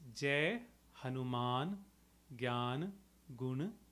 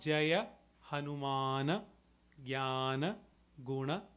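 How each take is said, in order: First: Each word ends without any extra final vowel. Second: Each word ends with an extra short a vowel. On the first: The speaker calls it right. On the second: The speaker calls it wrong. "So it's not"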